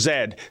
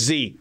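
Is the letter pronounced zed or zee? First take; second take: zed; zee. First: The letter is said as zed. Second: The letter is said as zee. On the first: This is the form used outside the United States. "In every English-speaking country in the world... the last letter of the alphabet is pronounced Zed" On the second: This is the form used in the United States. "only in the United States of America, it's Z"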